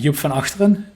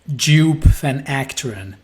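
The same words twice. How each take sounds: First: The name is said with Dutch pronunciation. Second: The name is said with Australian pronunciation. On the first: "the Dutch one is" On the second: "the Australian one is something like"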